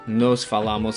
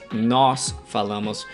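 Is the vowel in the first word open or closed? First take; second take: closed; open. First: The first word has a plain closed o vowel. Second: The first word has an open accented o vowel. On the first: The speaker calls it wrong. "It's not an O. Nos" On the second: The speaker calls it right. "this O has an accent going up, so it's ó"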